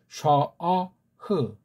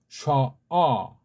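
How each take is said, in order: First: It ends with an audible final h sound. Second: It ends on the vowel with no h sound. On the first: The speaker calls it right. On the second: The speaker calls it wrong. "해자를 갖다 묵음으로 처리했으니 잘못된 거죠"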